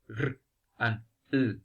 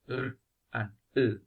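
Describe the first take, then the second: The two takes are said the same way.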